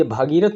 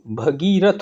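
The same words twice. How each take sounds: First: भागीरथ said with a long आ in भा, as the wrong form; भागीरथ read as bhaa-girath, the incorrect version; wrong spelling read out. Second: भगीरथ said slowly with a short अ in भ, as the correct form; भगीरथ read as bha-girath, the right version, carefully; correct spelling read out. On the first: (भागीरथ में लंबा "भा" बोलकर गलत रूप) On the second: (भगीरथ में छोटा "भ", धीरे और सही उच्चारण) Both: Shown as a demonstration. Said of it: "ये भागीरथ नहीं".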